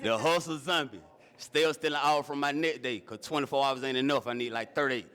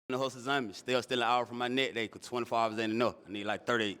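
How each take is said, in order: First: It is said more slowly. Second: It is said very fast.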